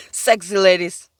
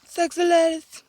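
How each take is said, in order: First: Said in the usual way. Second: Sexy ladies. lifted higher and sing-song; a higher, teasing take on Sexy ladies; playful high repeat. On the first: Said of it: "repeated in a new voice". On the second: Shown as a demonstration. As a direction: tease it in a high voice. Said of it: "repeated higher".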